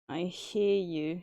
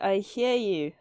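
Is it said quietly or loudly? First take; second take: quietly; loudly. First: It is mumbled quietly. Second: It is said loudly.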